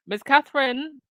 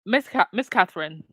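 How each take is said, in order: First: "Miss Catherine" sung out higher with a rising tune; sarcastic emphasis. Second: Said in the usual way. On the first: Real, not acted. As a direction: lift "Miss Catherine" up high and let it rise, teasingly. Repeats the name with mock emphasis.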